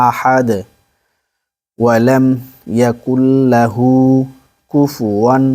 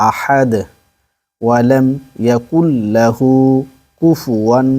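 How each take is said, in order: The two takes are said the same way.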